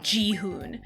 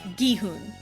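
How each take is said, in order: First: The name begins with a soft J sound. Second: The name begins with a hard G sound. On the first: The speaker calls it wrong. "wildly mispronouncing it as Jihoon" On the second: The speaker calls it right. "It's the hard G"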